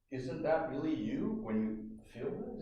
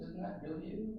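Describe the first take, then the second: First: Said in the usual way. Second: Soft echoed question. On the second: Shown as a demonstration. Repeats question more softly.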